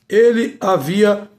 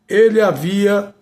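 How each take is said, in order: No difference in how they are said.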